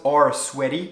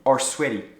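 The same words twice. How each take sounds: First: The word 'are' is said fully with its r. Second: The end of 'are' is dropped before 'sweaty'. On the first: The speaker calls it wrong. "So it's not his palms are sweaty" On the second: The speaker calls it right. "he crossed actually the end of the verb are"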